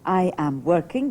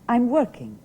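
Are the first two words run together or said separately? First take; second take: separately; run together. First: Each word is said separately and fully. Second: The first two words run together into one.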